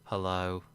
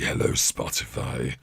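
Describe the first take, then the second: First: The greeting is said mildly and flatly. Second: The greeting is said aggressively.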